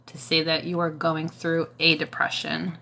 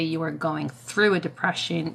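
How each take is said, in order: First: "a" set apart and emphasized before "depression"; stress on A. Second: "through" given the main emphasis; stress on THROUGH. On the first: Advising Bella how to word depression, stressing "a". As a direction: lean on the article "a" in "a depression". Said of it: "to not say that you're depressed". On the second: Explaining the mindset to Bella, stressing "through". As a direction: lean on "through" in "going through a depression". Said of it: "But when you say". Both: Shown as a demonstration.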